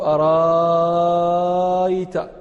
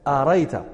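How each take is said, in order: First: The middle hamza becomes a long vowel. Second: The middle hamza is dropped entirely. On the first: "اللغة الثانية قلنا الإبدال" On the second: "اللغة الرابعة لغة الحذف"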